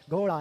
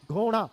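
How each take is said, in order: First: Said in the usual way. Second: घोड़ा misread as "ghoNa", with retroflex n for ड़; misspelling read out. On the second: Shown as a demonstration. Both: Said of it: "घोड़ा नहीं है ये".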